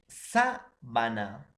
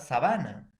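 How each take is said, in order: First: The first syllable carries the stress. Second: The first syllable does not carry the stress. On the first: "sabana es una esdrújula" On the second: "hay mucha diferencia con la palabra"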